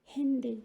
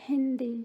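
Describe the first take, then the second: The two takes are said the same way.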